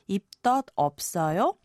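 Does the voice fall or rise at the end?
rises. The voice rises at the end.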